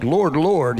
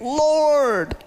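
First: Said in the usual way. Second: Lord! cried out high and long; screaming it. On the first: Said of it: "it's being said with emphasis". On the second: Shown as a demonstration. Preacher screaming to God, Lord! cried out high. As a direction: cry Lord! as a desperate scream, pitched way up. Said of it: "he's, like, screaming it".

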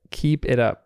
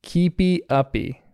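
First: "Keep It Up" as three plain words, falling at the end; American version. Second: KEEPY UPPY drawn out slowly, both words ending in ee; "Keepy Uppy", slower and higher, each word ending in a long ee; British-Australian name. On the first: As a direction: KEEP IT UP with KEEP stressed and no ee endings. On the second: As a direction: say "Keepy Uppy" slow and raised, with sing-out -ee endings. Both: Shown as a demonstration. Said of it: "as we Americans say it".

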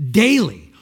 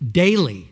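First: Daily again, louder and higher; stronger emphasis. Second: Louder, firm daily; emphatic. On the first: Preacher repeats daily to the congregation, louder and higher. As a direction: hammer daily harder the second time. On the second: Preacher names daily lost peace, emphatic. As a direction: set up daily with weight. Repeated word, building. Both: Acted.

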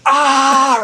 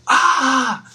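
First: Loud, high mock scream; full-volume imitated scream of exasperation; retold yell back. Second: High-pitched mock scream of frustration; imitated toddler yell, high but held back; mimicked child's yell. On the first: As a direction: yell right back, louder, like a childish comeback. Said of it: "looked right back at him and went". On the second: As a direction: let out a kid's exasperated "aah". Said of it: "like, yelled".

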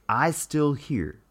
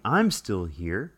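First: "I still here" said slowly, with no "I'm"; dropped contraction. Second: Said in the usual way. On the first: Shown as a demonstration. Contrasting her grammar for viewers, slow "I still here". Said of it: "She's saying". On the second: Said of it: "she's not saying".

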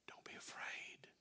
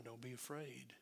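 First: Slow hushed whisper of comfort; a soft whisper to a frightened child; whispered reassurance. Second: Said in the usual way. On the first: Shown as a demonstration. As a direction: breathe it out gently, slowly. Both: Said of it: "what he says to his children".

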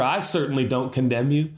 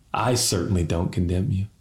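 First: Sincere declaration. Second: Quiet, tender pardon. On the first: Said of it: "I want to say for Church Home". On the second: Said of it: "Can every preacher say that?". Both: Shown as a demonstration.

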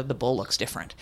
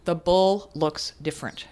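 First: "the bull looks different" said lower and softer, leaning on "bull"; quoted mantra. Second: Said in the usual way. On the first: Shown as a demonstration. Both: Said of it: "I changed his phrase to".

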